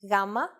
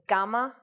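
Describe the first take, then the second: First: The first consonant is soft, Greek style. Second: The first consonant is hard, English style. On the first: The speaker calls it right. "in Greek the sounds are much softer" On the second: The speaker calls it wrong. "their English versions"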